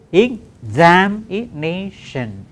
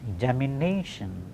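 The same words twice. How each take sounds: First: EXAMINATION very slow, in five separate beats; syllable by syllable. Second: Said in the usual way. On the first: Shown as a demonstration. Teacher showing five syllables, EXAMINATION said syllable by syllable. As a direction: stretch EXAMINATION out, each syllable apart. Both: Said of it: "Just five syllables".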